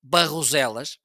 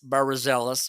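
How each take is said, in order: First: The name is said with a native Portuguese pronunciation. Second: The name is said with an English-like pronunciation. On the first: This is how locals say it. The speaker calls it right. "the right way to say it's Barroselas" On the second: This is how the voice assistant says it. The speaker calls it wrong. "Alexa say it's Barroselas"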